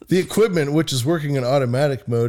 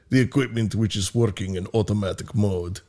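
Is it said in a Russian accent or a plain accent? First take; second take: plain; Russian. First: It is said in the speaker's plain accent. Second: It is said in a put-on Russian accent.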